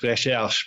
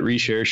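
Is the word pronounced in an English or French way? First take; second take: French; English. First: It is said with a full French pronunciation. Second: It is said with an anglicized pronunciation. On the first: "if you want to say it full French" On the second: "they probably just called it"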